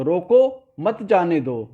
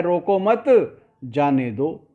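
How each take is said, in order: First: रोको, stop, then मत जाने दो together; slow order with the break after रोको; intended pause. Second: रोको मत together, stop, then जाने दो; misheard pause. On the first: Teacher giving what the king meant, pause after the first word. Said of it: "राजा ने तो ये बोला". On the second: Teacher giving what the courtiers understood, pause after second word. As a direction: move the break to after मत. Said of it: "तो वो समझे कि राजा कह रहा है". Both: Shown as a demonstration.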